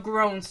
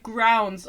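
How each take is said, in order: First: "groans" with a long oh vowel; self-corrected oh sound in "groans"; corrected pronunciation. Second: "grounds" said for groans, with an ow vowel; accidental ow sound in "grounds"; mispronounced groans. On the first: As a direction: correct it to "groans", rhyming with phones. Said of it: "how to pronounce English words". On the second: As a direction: slip and say "grounds", rhyming with sounds. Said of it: "don't know how to pronounce". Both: Real, not acted.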